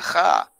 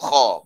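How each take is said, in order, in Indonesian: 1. Konsonan itu ringan dan tipis. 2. Konsonan itu berat dan dalam. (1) "bukannya kha" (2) "jadi kena sebut kha"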